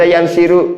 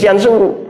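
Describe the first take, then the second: First: The vowel before the final syllable is i. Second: The vowel before the final syllable is u. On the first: The speaker calls it wrong. "nggak boleh dibaca" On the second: The speaker calls it right. "harus yansuru"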